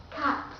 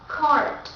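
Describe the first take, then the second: First: Cart with a silent R, British; British cart, drop the R; British accent. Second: Cart with the R sounded, American; American cart, pronounce the R; American accent. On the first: Teacher contrasting two accents for learners, British accent. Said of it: "the second will be British accent". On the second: Teacher contrasting two accents for learners, American accent. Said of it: "The first will be American accent". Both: Shown as a demonstration.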